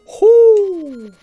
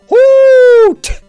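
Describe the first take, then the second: First: The call ends without any t sound. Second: The call ends with a clear t sound. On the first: The speaker calls it right. "I always say who instead of hoot" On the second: The speaker calls it wrong. "You never actually hear an owl go"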